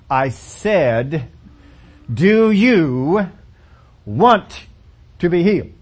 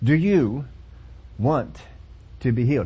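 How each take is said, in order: First: It is asked with a sarcastic tone. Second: It is asked plainly, without sarcasm.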